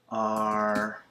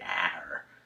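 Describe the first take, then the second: First: The vowel before the R is like 'hot'. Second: The vowel before the R is like 'cat'. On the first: The speaker calls it right. "short O plus an R ... like that" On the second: The speaker calls it wrong. "You don't say AR"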